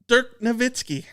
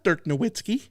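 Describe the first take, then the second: First: The W in Nowitzki sounds like a V. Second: The W in Nowitzki sounds like a W. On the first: The speaker calls it right. "It it's like German" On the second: The speaker calls it wrong.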